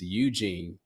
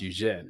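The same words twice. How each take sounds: First: The name is said with an American pronunciation. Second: The name is said with a French pronunciation. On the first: The speaker calls it wrong. "the Americanized way is Eugene" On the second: The speaker calls it right. "but it is pronounced Eugene"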